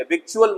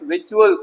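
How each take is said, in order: First: विचुअल said as विक्चुअल, C sounded; wrong pronunciation. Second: विचुअल with no K sound; correct pronunciation. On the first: (गलत उच्चारण, विचुअल में "क" बोलकर) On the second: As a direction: leave the C silent in विचुअल. (सही उच्चारण, विचुअल में C मूक) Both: Shown as a demonstration. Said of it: "विचुअल मत पढ़िएगा".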